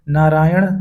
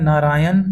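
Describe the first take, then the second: First: नारायण ending in retroflex ṇ; careful नारायण with final ण. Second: नारायण ending in plain dental n; नारायण with न instead of ण. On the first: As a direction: curl the tongue back at the end of नारायण. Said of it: "शुद्ध होता है". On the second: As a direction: say नारायण as naraayan. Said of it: "अशुद्ध होता है". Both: Shown as a demonstration.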